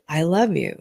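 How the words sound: It is said warmly, with deep, heartfelt love.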